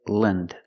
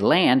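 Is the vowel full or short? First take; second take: short; full. First: The syllable is said with a short vowel. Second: The syllable is said with a full vowel. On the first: The speaker calls it right. "we say Lind, Lind. Another short sound" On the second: The speaker calls it wrong. "we don't say land"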